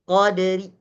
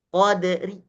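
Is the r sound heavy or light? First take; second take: light; light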